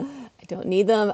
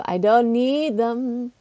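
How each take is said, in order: First: Said in the usual way. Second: "I don't need them" slow with weight on "need"; drawn-out repeat. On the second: Shown as a demonstration. Streamer groaning at raid bosses, slowly drawn out.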